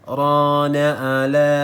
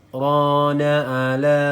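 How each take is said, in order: Both takes have the same delivery.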